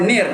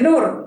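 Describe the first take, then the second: First: The syllable has an 'ee' vowel. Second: The syllable has an 'oo' vowel. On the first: The speaker calls it right. "Nir. Bukan nur" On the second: The speaker calls it wrong. "Bukan nur"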